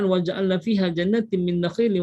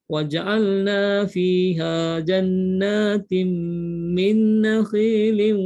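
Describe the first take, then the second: First: It is recited quickly without drawn-out sounds. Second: It is recited slowly with drawn-out sounds. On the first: It is quoted as an example, not recited for worship. "Itu tanpa kita baca dengan tajwid, hukumnya boleh" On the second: It is recited properly as worship. "kena mengaji dengan hukum tajwid. Jadi kena baca"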